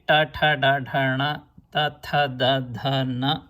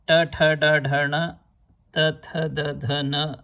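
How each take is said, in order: First: Southern Indian "ta, tha, da, dha, na", each ending in a full "ah"; southern pronunciation. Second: Hindi-style "Ta, tha, da, dha, na", each ending in a short "uh"; Hindi pronunciation. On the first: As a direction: say "ta, tha, da, dha, na" with open "aa" vowels. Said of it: "But here you will say". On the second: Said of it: "as we say in Hindi". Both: Shown as a demonstration.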